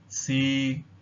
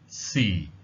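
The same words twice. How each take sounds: First: The pitch stays level at mid height. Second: The pitch falls low like a sigh. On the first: The word means to test. "the mid-level tone" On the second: The word means time. "the low falling tone... as if you were sighing"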